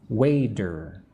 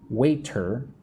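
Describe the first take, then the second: First: The T in the middle is soft and light. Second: The T in the middle is crisp and hard. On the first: The speaker calls it right. "I pronounce the T softly" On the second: The speaker calls it wrong. "I don't say waiter"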